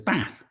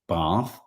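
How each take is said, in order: First: It is said in a non-southern English accent. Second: It is said in a southern English accent. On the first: "She says" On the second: "I have a southern posh accent, not posh but well spoken. I say"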